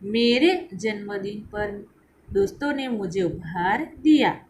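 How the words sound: The stress is on मेरे.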